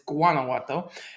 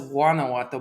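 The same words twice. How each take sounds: First: The word starts with a clear G sound. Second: The word starts without a clear G sound. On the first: The speaker calls it right. "You pronounce it with G" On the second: The speaker calls it wrong. "I always thought it was"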